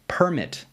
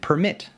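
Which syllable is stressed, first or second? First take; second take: first; second. First: The stress is on the first syllable. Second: The stress is on the second syllable. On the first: It is a noun meaning a license. "is a noun" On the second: It is a verb meaning to allow. "to allow"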